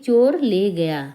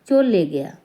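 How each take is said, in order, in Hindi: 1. हर शब्द पूरा और अलग-अलग बोला गया है। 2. शब्द आपस में मिल जाते हैं और 'र' की आवाज़ बदल जाती है। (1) "जब हम संभल के बोलते हैं तो हम पूरा बोलते हैं" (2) "बहुत जल्दी में बोलें"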